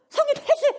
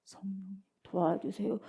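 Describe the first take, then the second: First: Very high, forceful cry for help; urgent plea. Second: Slow, soft, low half-hearted plea; passive plea. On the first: Preacher showing the right way to pray, urgent high plea. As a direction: beg actively with a burst of pitch. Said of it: "이래야 되는데". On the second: Preacher showing the wrong way to pray, slow passive plea. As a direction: drag it out feebly, with no effort. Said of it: "이게 되겠냐 이 말이". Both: Shown as a demonstration.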